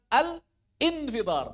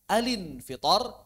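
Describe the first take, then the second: First: Al is cut off before a separate in. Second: The l joins the next vowel: a-lin. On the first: The speaker calls it wrong. "Al infitor itu keliru" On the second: The speaker calls it right. "Bisa alin fitor"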